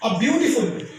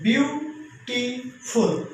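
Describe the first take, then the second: First: Said in the usual way. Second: ब्यूटीफुल said very slowly, syllable by syllable, bu-ti-ful; split into syllables. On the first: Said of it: "अब देखिए तीन syllable है". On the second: Shown as a demonstration. Teacher showing students the syllables: ब्यूटीफुल very slowly, syllable by syllable. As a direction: stretch ब्यूटीफुल out into its three syllables. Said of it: "इसको तीन syllable में तोड़ा है".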